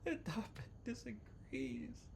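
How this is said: It is read in a put-on crying voice.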